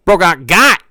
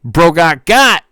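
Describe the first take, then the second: First: Louder, higher taunting chat line; a louder, higher mock taunt; gleeful chatter. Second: Louder, higher, slow "Bro got got"; slow mock gloat; slow taunting chatter. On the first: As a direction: gloat it like a viewer. Reading a chat message. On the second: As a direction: drag out the taunt like a smug viewer. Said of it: "corrected reading of the chat message".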